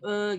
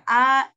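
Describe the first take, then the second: First: The vowel is a closer 'e' sound. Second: The vowel is an open 'a' sound. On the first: The speaker calls it wrong. "Jangan E gitu ya" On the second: The speaker calls it right. "Harus membuka"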